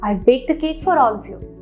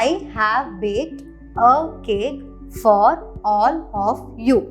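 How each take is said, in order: First: The word 'have' is contracted and words run together. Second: Every word is said fully and separately.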